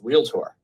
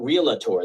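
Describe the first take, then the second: First: It has two syllables, with no extra vowel. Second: It has three syllables, with an extra vowel. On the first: The speaker calls it right. "It's realtor. There is no A in there" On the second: The speaker calls it wrong. "It's not realtor"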